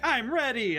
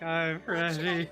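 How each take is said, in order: First: It is said eagerly and brightly. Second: It is said flatly and gloomily. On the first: The speaker is keen to start. "Everybody used to be like" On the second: The speaker feels worn down and reluctant. "and now it's like, ... Depression"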